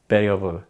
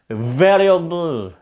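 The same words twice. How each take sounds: First: The first sound is made with both lips. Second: The first sound is made with teeth on lip. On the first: "그냥 이렇게 입술이 붙었다가 이렇게 떨어지더라도" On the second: "이렇게 발음해야 되나요?"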